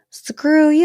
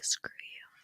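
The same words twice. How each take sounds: First: Higher and louder, out in full voice; said with her whole chest. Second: Barely voiced, just breathing the words; mouthed whisper. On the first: Retold or imitated. Leah finally telling Rob off out loud, higher and louder. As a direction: stop hiding it and spit it straight at him. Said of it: "say it with your whole chest". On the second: Leah mouthing an insult at Rob across the fire pit, whispered. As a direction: mouth it silently so only he catches it. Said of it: "She mouths it".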